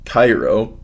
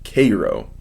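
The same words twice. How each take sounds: First: The name is said the usual way. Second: The name is said the local way.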